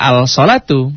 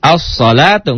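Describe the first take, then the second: First: "al-salatu" with the L clearly voiced; "al-salatu" as two parts, al plus salatu; wrongly sounded L. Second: "As-salatu" with the L dropped into a long S; higher "As-salatu", no L heard; silent L, doubled S. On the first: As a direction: read out the L before S in "al-salatu". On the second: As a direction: glide from A into a held S in "As-salatu". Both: Shown as a demonstration. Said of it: "nggak al-salatu".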